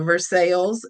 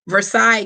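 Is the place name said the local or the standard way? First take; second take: local; standard. First: The name is said the local Kentucky way. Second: The name is said the usual, non-local way. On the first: "but a Versailles" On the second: "not a Versailles, Kentucky"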